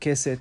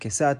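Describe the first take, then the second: First: The last vowel sounds like 'eh'. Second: The last vowel sounds like 'ah'. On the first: This is not the speaker's community's pronunciation. "not Keset" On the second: "I said Kesat, That's how we pronounce it. that's how Sfaradim traditionally pronounce it"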